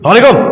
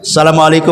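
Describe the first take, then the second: First: It is said in an angry, irritated tone. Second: It is said in a soft, calm tone. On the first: The speaker calls it wrong. "mengucapkan salam dengan nada marah tidak boleh" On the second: The speaker calls it right. "Tetap saja salamnya lembut"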